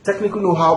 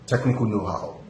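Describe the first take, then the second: First: It is said at the same running pace. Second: It is said at a changed, separate pace. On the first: The speaker carries on as if still talking. The speaker calls it right. "because you're continuing to say something" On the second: The speaker restarts as if beginning anew. The speaker calls it wrong. "don't say technical how no, and then you go back technical know-how. That's different"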